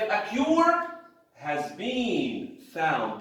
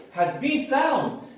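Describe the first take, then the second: First: A cure has been found drawn out slowly; slow, stressed reading. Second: Has been found higher and slower; stress on has been found. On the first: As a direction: read it very slowly to stress the action. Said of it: "That's what is important to us". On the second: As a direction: lift has been found up high and slow. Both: Shown as a demonstration.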